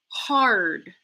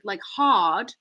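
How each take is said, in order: First: The R sound is clearly pronounced. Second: The R sound is dropped entirely. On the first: The speaker calls it right. "if you have the R in hard" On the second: The speaker calls it wrong. "like with a British kind of accent with no R sound"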